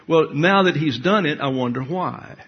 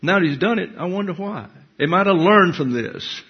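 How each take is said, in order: First: Said in the usual way. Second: Higher, plaintive wondering voice; mock wondering believer. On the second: Preacher mimicking a troubled believer, higher mock wondering. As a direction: put on a puzzled, pleading lilt. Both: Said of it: "ask the next question".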